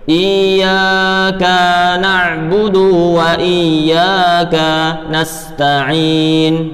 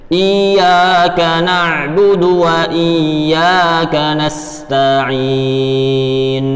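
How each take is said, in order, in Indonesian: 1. Harakat pada kaf dan dal dibaca panjang. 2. Harakat pada kaf dan dal dibaca pendek. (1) "Jadi jangan sampai baca seperti ini" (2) "kaf dibaca pendek, dalnya juga dibaca pendek"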